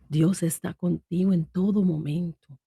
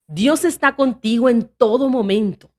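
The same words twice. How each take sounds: First: It is said in a soft, peaceful tone. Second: It is said in a firm, steady tone. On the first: It conveys calm and tranquility. "algo pacífico, algo suave" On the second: It conveys conviction and assurance. "un tono firme"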